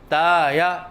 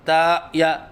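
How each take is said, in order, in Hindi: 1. पहला स्वर पिच में ऊपर-नीचे लहराता है। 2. पहला स्वर गले की रुकावट से कटा है। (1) "न हम लहराव के साथ कहते हैं" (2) "न हम हमज़ा के साथ कहते हैं"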